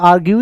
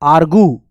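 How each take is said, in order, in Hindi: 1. दूसरे शब्दांश में y की ध्वनि है: gyoo. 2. दूसरे शब्दांश में y की ध्वनि नहीं है: goo. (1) "हालांकि साउंड इसका आर्ग्यू ही होता है" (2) "अलग से एक और, ... ए आर जी यू"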